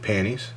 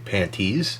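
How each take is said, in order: First: The word is said smoothly and loosely. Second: The word is said stiffly and awkwardly.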